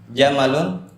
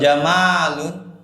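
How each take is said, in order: First: The vowel after the m is short. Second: The vowel after the m is long. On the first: It means camel. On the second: It means beauty.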